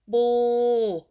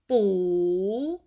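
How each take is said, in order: First: The pitch stays level in the middle. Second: The pitch rises across the syllable. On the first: "Start with middle tone" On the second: "rising tone"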